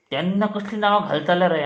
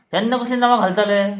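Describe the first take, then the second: First: Said in the usual way. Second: Higher, quick, indignant repeat; mock scolding. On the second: Teacher grilling pupils about silly screen names, mock scolding. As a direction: press the question with raised pitch, fast.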